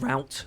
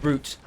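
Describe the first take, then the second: First: The word is said with an American pronunciation. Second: The word is said with an English pronunciation. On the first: The speaker calls it wrong. "not route. I'm not American" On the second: The speaker calls it right. "I'm supposed to say route because I'm English"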